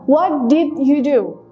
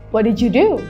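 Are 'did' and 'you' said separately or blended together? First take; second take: separately; blended. First: Did and you are said as separate words. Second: Did and you are blended into one sound.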